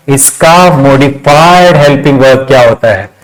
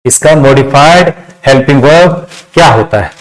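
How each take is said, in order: Both takes have the same delivery.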